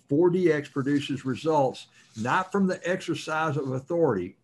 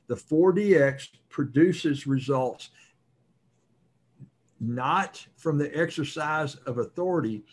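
First: It is said at normal speed. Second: It is said slowly and deliberately.

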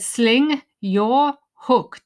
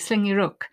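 First: Each word is said slowly and separately. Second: The words run together quickly and smoothly. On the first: The speaker calls it wrong. "with each word very clearly separate" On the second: The speaker calls it right. "really, really fast and naturally"

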